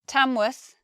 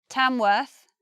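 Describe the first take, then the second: First: The last syllable has a reduced schwa. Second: The last syllable has a short er sound. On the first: "first pronunciation, worth" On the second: "Second pronunciation now"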